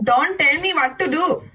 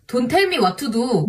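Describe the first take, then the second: First: "Don't tell me what to do" with retroflex t sounds in a Korean accent; "me" stressed, in a Korean accent. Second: "don't tell me what to do" with dental t sounds in an Indian accent; "tell" stressed with a falling tune, Indian accent. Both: Shown as a demonstration. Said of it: "Pronouncing English words in Indian and Korean accent".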